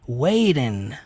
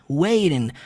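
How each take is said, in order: First: The middle t is soft, like an r. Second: The same.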